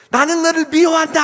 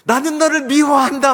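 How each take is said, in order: First: Very high, full-force bellow; all-out acted yell. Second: Loud, high cursing yell; acted hateful shout. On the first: Mother and son yell at the bully, shouting at full force. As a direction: hurl the hatred as loud as possible. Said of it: "소리 지르니까 더 크게". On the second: Son vents at his bully on the mountain, shouting hatred. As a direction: declare hatred across the mountain. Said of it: "막 이렇게 욕을 막 하는 거예요".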